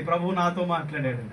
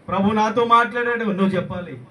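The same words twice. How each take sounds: First: Said in the usual way. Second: High-pitched, forceful declaration; loud proclamation. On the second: Acted. Preacher urging believers to testify, loud proclamation. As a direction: declare it with a raised, ringing voice.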